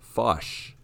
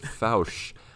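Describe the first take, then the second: First: The vowel does not rhyme with couch. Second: The vowel rhymes with couch. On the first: The speaker calls it wrong. "I really hope I said that right" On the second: The speaker calls it right. "It's like couch"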